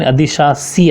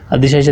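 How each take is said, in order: First: "अधिशासी" slowly, ending in a plain si; correct pronunciation. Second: "अधिशासी" said as adhishaashi, sh twice; wrong pronunciation. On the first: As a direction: draw out "अधिशासी" as adhi-shaa-si. ("अधिशासी" के अंत में सी साफ़) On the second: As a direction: repeat the sh at the end of "अधिशासी". ("अधिशासी" को अधिशाशी बोलना) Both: Shown as a demonstration. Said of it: "लेकिन अधिशासी आएगा".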